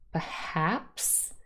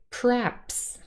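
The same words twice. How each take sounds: First: The first syllable has a weak schwa vowel. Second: The first syllable is just a syllabic r. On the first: "contains a schwa" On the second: "we have a syllabic r sound"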